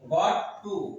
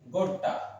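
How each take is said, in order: First: Both words are said fully and separately. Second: The words are blended into one short word.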